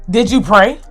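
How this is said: It sounds sharp and accusing. The listener feels attacked. The speaker calls it wrong. "bruh, your tone, like, what?"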